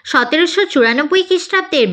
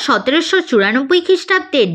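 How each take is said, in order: Both takes have the same delivery.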